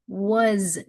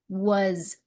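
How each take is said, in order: First: The word ends with a buzzing z sound. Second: The same.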